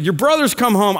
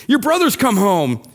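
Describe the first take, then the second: First: Said in the usual way. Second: Mildly excited announcement. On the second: Acted. Servant telling the older brother the news, excited. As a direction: share the news with a lift of excitement. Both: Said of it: "I think he said it excited".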